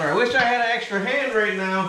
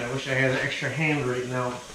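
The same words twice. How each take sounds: First: It is said at a louder volume. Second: It is said at normal, quieter volume.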